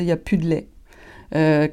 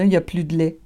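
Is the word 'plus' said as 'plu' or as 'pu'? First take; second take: pu; plu. First: The word 'plus' drops its 'l' sound. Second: The word 'plus' keeps its 'l' sound. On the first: "on va dire" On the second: "On va pas dire"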